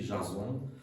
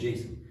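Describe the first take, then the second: First: The name is pronounced the French way. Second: The name is pronounced the English way. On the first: "en français, on toujours écrit" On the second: "en anglais"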